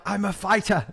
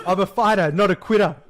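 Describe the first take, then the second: First: Higher-pitched botched impression slipping into Irish; accidental Irish accent. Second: Louder, higher mock British politician accent; corrected British accent. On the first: Mocking the British Prime Minister to a co-host, accidental Irish accent. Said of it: "that's an Irish accent". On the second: Co-host retrying the Prime Minister's line, mock British accent. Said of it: "No, that's, that's an Irish accent".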